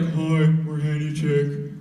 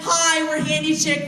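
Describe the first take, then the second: First: It is said in an ordinary, natural voice. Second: It is said in an exaggerated, put-on voice. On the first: The speaker calls it wrong. "I couldn't just go up to the door and be like" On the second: The speaker calls it right. "you gotta do it in the voice"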